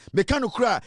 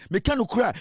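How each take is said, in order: Both takes have the same delivery.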